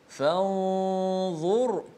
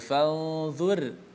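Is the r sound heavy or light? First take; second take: heavy; light. First: The r sound is heavy and full. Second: The r sound is light and thin. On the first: The speaker calls it right. "dibaca dengan tebal" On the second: The speaker calls it wrong. "tidak boleh baca fanzur"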